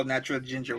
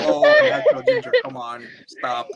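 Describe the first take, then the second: First: Said in the usual way. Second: High, fast, giggling gush; mock flirty gush. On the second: Fan gushing at Natural Ginger, high and giggly. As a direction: swoon over her name, laughing, then drop to a breathy stop.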